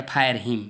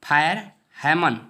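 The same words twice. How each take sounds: First: fire हिम with हिम said like English "him"; fire hymn pronunciation. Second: fire हेमन, the second word spoken louder as "heh-mun"; fire heman pronunciation. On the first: Teacher shows students the alternate reading of हिम. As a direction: say हिम as "him", a short plain vowel. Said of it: "कुछ लोग इसे fire हिम भी बोलते हैं". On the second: Teacher gives students the main reading as हेमन. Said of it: "fire हेमन या fire हिम". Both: Shown as a demonstration.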